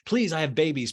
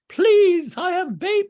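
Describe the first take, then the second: First: It is said in the speaker's normal voice. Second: It is said in a put-on character voice.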